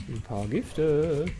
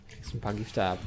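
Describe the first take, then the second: First: Slow, savoured echo of Gifte; drawn-out repeat. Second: Said in the usual way. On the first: Shown as a demonstration. Streamer slowly relishing the poison hit, drawn out. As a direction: stretch each word out, relishing it. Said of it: "slow mocking repeat". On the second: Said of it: "repeats words slowly after".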